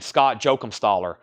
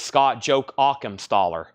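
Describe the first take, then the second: First: The surname is said without the extra syllable. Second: The surname is said with the extra syllable. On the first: The speaker calls it wrong. "I've been saying" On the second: The speaker calls it right. "but it's"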